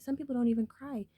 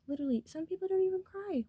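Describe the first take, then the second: First: Said in the usual way. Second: Pitched way up on the repeat, leaning on don't; insistent repeat. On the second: Real, not acted. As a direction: say it again, higher, hammering don't.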